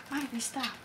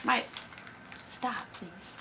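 First: Quiet aside. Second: Much softer plea to stop; soft, hushed please to stop; hushed aside. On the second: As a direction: ask someone nearby to stop, under your breath. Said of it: "Make it too much noise". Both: Real, not acted.

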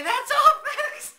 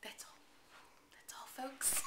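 First: Much higher, louder cartoon pig stammer on "That's all, folks"; Porky Pig impression. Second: Soft whispered "That's all, folks" through a laugh. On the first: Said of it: "the Porky Pig would say". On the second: Real, not acted. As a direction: breathe "That's all, folks" out while giggling. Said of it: "Just like the Porky Pig would say".

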